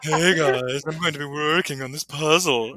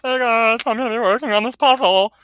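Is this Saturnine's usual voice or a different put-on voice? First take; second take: Saturnine's voice; different voice. First: It is said in Saturnine's usual voice. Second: It is said in an off-character put-on voice.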